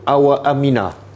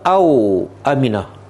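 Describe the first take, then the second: First: The first word ends with a vowel after w. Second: The first word ends in a closed w sound. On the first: The ones who were warned are joined with 'and'. "Satu awa aminah" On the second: The two cases are offered as alternatives, 'or'. "yang kedua au aminah"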